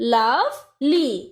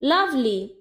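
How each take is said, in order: First: The syllables are said separately with a break. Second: The syllables are joined smoothly without a break.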